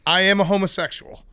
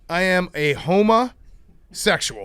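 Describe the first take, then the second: First: The phrase is said quickly. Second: The phrase is said more slowly.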